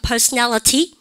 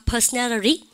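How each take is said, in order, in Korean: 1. t는 날카롭고 분명한 t입니다. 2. t는 부드럽고 빠른 플랩입니다. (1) "미국 애들 아니고 영국 애들이죠" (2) "미국 애들은 트 발음 안 합니다"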